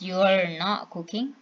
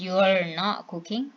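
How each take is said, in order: First: "You are" is shortened to "you're". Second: "You are" is shortened to "you're".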